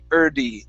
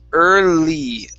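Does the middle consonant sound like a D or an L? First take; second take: D; L. First: The middle consonant is a quick D-like tap. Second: The middle consonant is a held L sound. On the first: The speaker calls it wrong. "you're pronouncing this L like a D" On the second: The speaker calls it right. "really pressing and holding that L sound"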